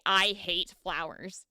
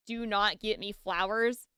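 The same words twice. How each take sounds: First: Slow, deliberate "I hate flowers"; stress on hate. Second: Said in the usual way. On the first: Shown as a demonstration. Comparing hint with direct order, slow emphatic "hate". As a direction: lean slowly on "hate", lower pitch. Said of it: "versus when I say". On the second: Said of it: "difference between me saying".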